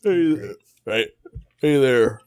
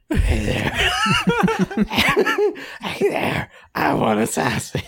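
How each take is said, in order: First: Rough attempt at a southern accent. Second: Throaty, strained rasp with laughs; hammed-up raspy character, cracking up. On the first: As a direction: try on a southern-accented greeting. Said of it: "you're going southern". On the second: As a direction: push a silly rasp out of the throat. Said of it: "then make it raspy".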